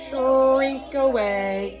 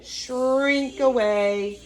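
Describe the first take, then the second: First: Stretched, slightly louder; slow drawn-out. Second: Slow drawn-out. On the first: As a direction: draw each word out. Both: Shown as a demonstration.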